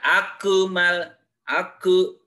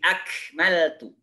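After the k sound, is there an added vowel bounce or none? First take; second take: added vowel; none. First: The k is bounced with an added vowel. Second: The k is held without any vowel bounce. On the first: The speaker calls it wrong. "Sudah dipantulkan sebab huruf qalqalah itu bukan huruf qalqalah" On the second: The speaker calls it right. "tapi akmaltu"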